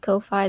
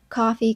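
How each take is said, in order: First: It rhymes with lo-fi, ending in 'fye'. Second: It sounds like the word coffee. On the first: "Lo-Fi, Ko-Fi" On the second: "pronounce it like coffee"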